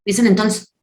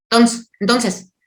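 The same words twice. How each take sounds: First: Said in the usual way. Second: Entonces slurred to tons, drawn out slowly; lazy slurred entonces; mumbled entonces. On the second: Shown as a demonstration. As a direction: garble the word entonces like someone who can't say it. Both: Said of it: "hay gente que no puede decir entonces".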